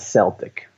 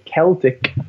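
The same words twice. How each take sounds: First: The word begins with a soft S sound. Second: The word begins with a hard K sound. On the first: It follows English spelling rules, as in team names. The speaker calls it wrong. "rather than Celtic" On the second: It refers to the culture and peoples. The speaker calls it right. "this is why we say Celtic"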